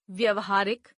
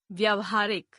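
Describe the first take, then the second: First: व्यवहारिक with a short first "a"; mispronounced. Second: Said in the usual way. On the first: Shown as a demonstration. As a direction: open व्यवहारिक as "vyava", not "vyaava". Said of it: "अशुद्ध". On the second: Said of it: "शुद्ध".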